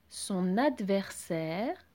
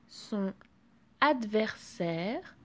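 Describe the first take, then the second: First: The n is carried over to adversaire. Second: The n is not carried over to adversaire. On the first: "j'ai fait la liaison" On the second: "Je n'ai pas fait la liaison"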